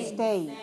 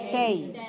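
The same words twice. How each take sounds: Both takes have the same delivery.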